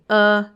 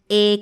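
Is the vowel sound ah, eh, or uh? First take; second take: uh; eh. First: A neutral uh vowel from the throat. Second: A clear eh vowel. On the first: The speaker calls it right. "Ese uh que sale desde la garganta es una schwa" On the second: The speaker calls it wrong. "pero tampoco es una E"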